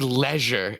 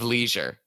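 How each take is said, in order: First: It is said in a fancy, French-like way. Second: It is said in an ordinary, everyday way. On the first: "Pretentious when you say leisure" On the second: "instead of leisure"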